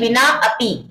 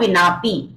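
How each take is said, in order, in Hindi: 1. दोनों शब्द अलग-अलग बोले जाते हैं, स्वर का उच्चारण होता है। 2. शब्द आपस में मिल जाते हैं, स्वर छोड़ दिया जाता है। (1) "वैसे तो क्या है, विना अपी ऐसे है" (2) "लेकिन साइलेंट कर दिया है क्योंकि इसमें ए को"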